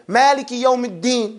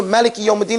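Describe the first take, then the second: First: "Maliki" with a long first a, Maa-liki; long first vowel. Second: "Maliki" with a short first a; short first vowel. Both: Shown as a demonstration. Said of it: "as opposed to Maliki Yawm al-Din".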